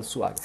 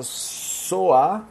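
First: "suar" said quickly with a u sound; softer, lower "suar" starting su-; near-miss pronunciation. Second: "soar" drawn out with a clear o; stretched, clearly articulated "soar"; careful pronunciation. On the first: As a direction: say "suar" with u in place of o. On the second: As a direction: say "soar" slowly, keeping the o open rather than u. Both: Shown as a demonstration. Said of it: "é quase que eu falo suar".

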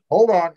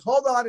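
First: Louder, like God talking in your cans; booming voice in headphones. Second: Said in the usual way. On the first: Retold or imitated. Producer cuts in over studio headphones, booming. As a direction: boom it through the headphones. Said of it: "It's like God's talking in your fucking cans".

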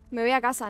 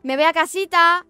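First: Said in the usual way. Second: Más agudo y fuerte, mimoso; tono aniñado. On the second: Shown as a demonstration. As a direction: dilo como una niña, «casita» cantarín. («casita» aniñado, agudo y fuerte)

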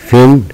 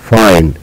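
First: فين high, with short i, like "fin". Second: فاين with "eye", like "fine"; long i name sound. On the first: Teacher summing up the rule, short i. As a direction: say فين using the letter's sound. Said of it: "ننطق صوتها". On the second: Teacher summing up the rule, long i. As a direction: say فاين using the letter's name. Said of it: "تنتهي بحرف الإي ننطق". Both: Shown as a demonstration.

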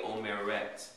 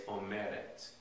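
First: "omeret" as o-me-RET; "omeret" stressed at its very end; stress on the last syllable. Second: "omeret" as o-ME-ret; accent the middle syllable of "omeret", softly; "omeret" with a light, unstressed final -ret; stress on second-to-last syllable. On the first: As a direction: land the accent on the final syllable of "omeret". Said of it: "instead of putting the accent on the third syllable". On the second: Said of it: "put it on the second to the last syllable". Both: Shown as a demonstration.

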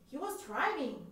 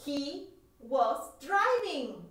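First: Said in the usual way. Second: He was driving drawn out very slowly, word by word; slow model answer. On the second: Shown as a demonstration. Teacher slowly modelling He was driving for students. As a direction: spell it out slowly for learners.

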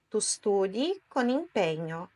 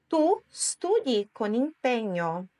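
First: Said in the usual way. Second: Slow, separated words for repeating; slow model sentence. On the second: Shown as a demonstration. Teacher models a sentence for learners, slowly. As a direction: say it slowly, word by word. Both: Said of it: "Agora é a sua vez".

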